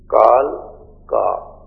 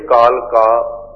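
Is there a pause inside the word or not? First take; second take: pause; no pause. First: There is a short pause after ਕਾਲ. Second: It is said as one word, no pause.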